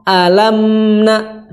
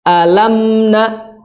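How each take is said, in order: First: The nasal sound is held with a slight pause. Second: The same.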